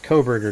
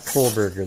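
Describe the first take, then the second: First: The name is said without an L sound. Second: The name is said with an L sound. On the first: The speaker calls it right. "There's no L in there" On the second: The speaker calls it wrong. "not Kohlberger"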